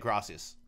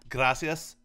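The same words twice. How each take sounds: First: It is said plainly with English-style pronunciation. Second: It is said with Spanish-style pronunciation and inflection. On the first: "when I just say it" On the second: It makes the speaker sound whiter. "I sound whiter when I say gracias"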